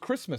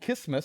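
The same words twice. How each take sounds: First: The R sound is clearly pronounced. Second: The R sound is left out. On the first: The speaker calls it right. "It was clearly an R in there" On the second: The speaker calls it wrong. "It wasn't"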